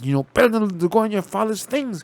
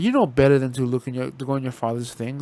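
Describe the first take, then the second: First: It sounds frightened and tense. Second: It sounds casual and unconcerned.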